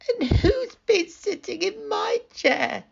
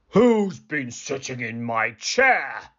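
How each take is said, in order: First: It is said in a high, squeaky voice. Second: It is said in a deep, gruff voice.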